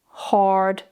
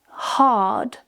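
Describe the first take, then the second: First: The R sound is clearly pronounced. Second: The R sound is not pronounced.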